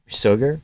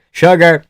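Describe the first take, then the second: First: "Sugar" with a plain s at the start; mispronounced sugar. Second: "Sugar" with a sh sound, louder and higher; corrected sugar. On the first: Questioning own slip, "Sugar" said as soogar. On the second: Correcting own slip, loud "Sugar" with a sh. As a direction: punch "Sugar" out with its sh at the start. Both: Shown as a demonstration.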